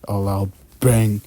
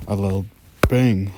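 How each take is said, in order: Both takes have the same delivery.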